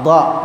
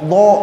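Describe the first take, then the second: First: It is said without rounding the lips. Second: It is said with the lips pushed forward. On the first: The speaker calls it right. "dha ini nggak pakai bibir" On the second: The speaker calls it wrong. "memonyong bibirnya nih, salah"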